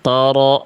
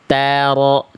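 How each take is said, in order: First: The first consonant is thick and heavy. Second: The first consonant is thin and light. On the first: The speaker calls it wrong. "Jangan toro" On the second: The speaker calls it right. "Tanya tipis"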